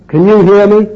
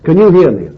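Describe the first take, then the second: First: "you" pushed higher and louder in "Can you hear me?"; pressing question. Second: Said in the usual way. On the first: Shown as a demonstration. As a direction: demand it, leaning on "you". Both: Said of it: "I'm not meaning now whether I'm speaking loudly enough".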